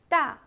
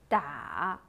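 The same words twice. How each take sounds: First: The pitch falls sharply from high to low. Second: The pitch dips low, then rises.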